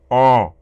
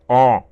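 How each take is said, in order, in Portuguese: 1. A vogal é dita com uma voz nasal e gutural. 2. A vogal é dita com uma voz nasal e gutural.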